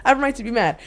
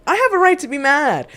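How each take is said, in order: First: Said in the usual way. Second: Forceful declaration; emphatic, louder. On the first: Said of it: "repeated line, softer". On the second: Real, not acted. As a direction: hit it hard and high. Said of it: "repeated emphatic line".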